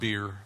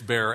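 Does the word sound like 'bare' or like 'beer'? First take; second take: beer; bare. First: The vowel sounds like in 'beer'. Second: The vowel sounds like in 'bare'. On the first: The speaker calls it wrong. "It's not beer" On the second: The speaker calls it right. "It's bare, as in the paint"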